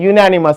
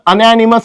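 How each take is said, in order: First: The word begins with a 'y' sound. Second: The word begins with a plain vowel sound. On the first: The speaker calls it right. "Actual जे pronunciation आहे" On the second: The speaker calls it wrong. "मी जर अनॅनिमस म्हटलं तर तुम्ही काही म्हणा"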